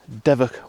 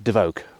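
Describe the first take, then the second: First: The second syllable has a short vowel. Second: The second syllable has a long vowel. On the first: This is how local people say it. The speaker calls it right. "It is pronounced Devok Water" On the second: This is how most visitors say it. The speaker calls it wrong. "most people would pronounce it as Devoke"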